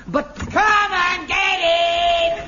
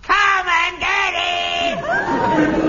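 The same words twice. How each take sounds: First: Slow, high, ringing bellow; booming call. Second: Slow, high, ringing shout held long; full-voiced drawn-out call; resonant shout. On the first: Acted. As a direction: sing it out like a parade-ground call. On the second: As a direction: bellow it so the hall rings. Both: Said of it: "Such resonance".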